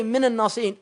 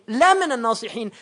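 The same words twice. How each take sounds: First: Said in the usual way. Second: "la" said high and loud before minan nasihin; the emphatic "la" stressed. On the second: Shown as a demonstration. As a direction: punch the "la" to show emphasis. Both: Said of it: "He didn't say minan nasihin".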